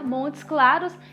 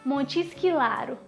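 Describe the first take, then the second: First: The name ends with a final s sound. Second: The name ends without the final s sound. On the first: "ao invés de falar Montes Claros" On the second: "ela fala Montes Claro"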